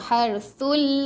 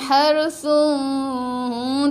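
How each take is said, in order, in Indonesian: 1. N menyatu dengan l tanpa dengung. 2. N tetap dipertahankan sebagai bunyi sengau. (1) "Harsul masuk lam, jangan dengung" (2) "Jangan harsun, tak mau nah"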